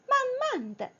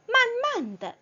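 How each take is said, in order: First: The last syllable is a light toneless 'duh'. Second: The same.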